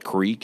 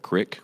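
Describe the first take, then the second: First: The word has a long ee vowel. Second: The word has a short i vowel.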